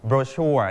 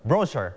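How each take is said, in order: First: Brochure with stress on the second syllable, bro-CHURE; teacher shows students the American way, stress on second syllable; American pronunciation. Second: Brochure with stress on the first syllable, BRO-chure; teacher shows students the British way, stress on first syllable; British pronunciation. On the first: เน้นพยางค์ที่สองแบบอเมริกัน. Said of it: "อังกฤษแบบอเมริกันจะอ่านว่า". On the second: เน้นพยางค์แรกแบบอังกฤษ. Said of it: "เขาจะอ่านว่า brochure". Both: Shown as a demonstration.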